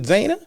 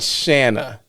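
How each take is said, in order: First: The name begins with a z sound. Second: The name begins with an sh sound. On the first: The speaker calls it wrong. "nope, I'm not saying it right" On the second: The speaker calls it right. "hopefully I'm saying that right"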